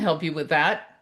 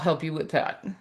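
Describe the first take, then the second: First: It sounds warm and confident. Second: It sounds weary, with a sigh. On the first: The speaker is glad to help. The speaker calls it right. "imagine it said with warmth and confidence" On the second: The speaker is reluctant and distracted. The speaker calls it wrong. "with a sigh and a look at the computer"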